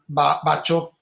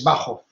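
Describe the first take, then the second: First: The 'ch' is said like English 'church'. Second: The 'ch' is a throaty sound from the back. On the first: The speaker calls it wrong. "nunca pronuncien en alemán la C H como che" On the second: The speaker calls it right. "la C H se pronuncia G"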